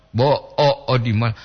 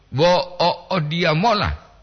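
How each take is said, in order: First: Bo o, o di mola level, in separate pieces; intonation for "only this much". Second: Bo o, o dia mola raised high, falling at the end; intonation for "heading there". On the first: Teacher repeating the contrast, Bo o, o di mola kept level. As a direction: keep Bo o, o di mola unraised, mola short. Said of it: "hanya sebegini yang dapat". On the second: Teacher repeating the contrast, bo o, o dia mola pitched higher. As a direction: lift the whole of bo o, o dia mola. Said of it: "menuju ke sana". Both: Shown as a demonstration.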